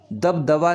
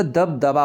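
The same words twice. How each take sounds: First: दबदबा ending in vaa, as dab-davaa; wrong v sound. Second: दबदबा ending in baa, lips closed; correct b sound. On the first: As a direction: use v for the last b of दबदबा. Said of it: "नहीं होता". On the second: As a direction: say दबदबा as dab-dabaa. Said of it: "बा आएगा यहाँ भी". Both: Shown as a demonstration.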